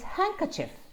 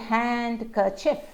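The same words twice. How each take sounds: First: The D sound is left out. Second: The D sound is clearly pronounced. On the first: The speaker calls it right. "no D at all" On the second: The speaker calls it wrong. "We don't say handkerchief"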